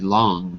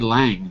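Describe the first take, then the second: First: The name is said in a British accent. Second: The name is said in an American accent. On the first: "British English, I guess it could be Long" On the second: "that's just my American accent"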